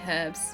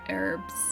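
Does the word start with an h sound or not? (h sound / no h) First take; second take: h sound; no h. First: The word begins with an audible h sound. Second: The word begins directly with the vowel sound. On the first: The speaker calls it right. "I need the H at the front" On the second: The speaker calls it wrong. "not herbs"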